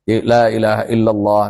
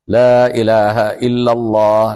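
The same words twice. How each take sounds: First: The phrase is recited quickly but carefully. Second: The phrase is recited slowly and relaxed. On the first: "Bacaan cepat tapi tidak tidak membuang tartilnya"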